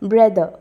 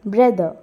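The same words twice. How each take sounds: The two takes are said the same way.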